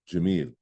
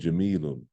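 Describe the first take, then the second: First: The word ends without an added 'un' sound. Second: The word ends with an added 'un' sound. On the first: The sentence ends with this word. The speaker calls it right. "I'm saying Jamil because I'm ending with it" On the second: The speaker keeps going after the word. The speaker calls it wrong. "I'm not saying Jamilun"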